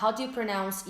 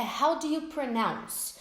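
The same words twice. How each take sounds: First: Said in the usual way. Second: How do you pronounce said slowly; slow model phrase. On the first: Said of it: "você pode falar". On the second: Shown as a demonstration. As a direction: clear teacher model. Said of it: "Outra boa de saber é".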